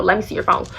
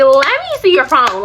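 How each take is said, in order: First: Lower, firm and flat-out serious; no joking now, mean it; serious demand. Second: Light, teasing ask, a bit louder; half-joking, like it's a game; playful demand. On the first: Girlfriend to boyfriend hiding his phone, dead serious. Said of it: "this time I'm being for real". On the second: Girlfriend teasing boyfriend at the food court, playful. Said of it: "first time I was playing". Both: Retold or imitated.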